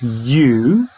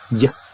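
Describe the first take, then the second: First: The word is said with its full vowel. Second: The word is cut to a short weak form. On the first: The speaker calls it wrong. "it's not you" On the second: The speaker calls it right. "the short form of you is y"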